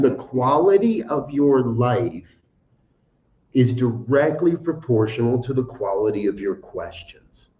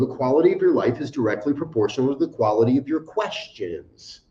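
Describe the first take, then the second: First: It is said more slowly. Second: It is said at a normal speed.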